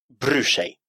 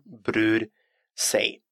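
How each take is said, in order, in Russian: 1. Звуки r и s сливаются в один звук sh. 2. Звуки r и s произносятся как отдельные звуки. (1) "можно эти две буквы объединить. Брюшей" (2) "вместо брюрсей"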